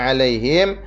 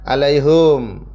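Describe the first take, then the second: First: The final syllable ends with him. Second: The final syllable ends with hum. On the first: "him hanya di kasrah" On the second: "di domah"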